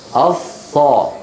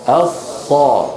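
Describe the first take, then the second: The two takes are said the same way.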